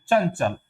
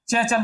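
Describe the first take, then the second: First: चंचल with a palatal ñ nasal before च; चंचल as cañcal, nasal blending into च; correct pronunciation. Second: चंचल with the nasal not matched to च; चंचल said as it is spelled, the nasal not shifted; deliberately wrong चंचल; wrong pronunciation. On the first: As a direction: model चंचल the right way. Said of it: "न बोलेगा". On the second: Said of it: "चंचल नहीं बोलेंगे". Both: Shown as a demonstration.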